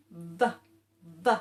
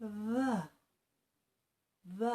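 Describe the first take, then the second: First: "V" with a strong buzzing V; "V" pushed with teeth on lip; forced V. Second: "V" softly with a light buzz; "V" gently, softer; gentle V. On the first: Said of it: "you can go like this". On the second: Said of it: "you can do it gently". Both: Shown as a demonstration.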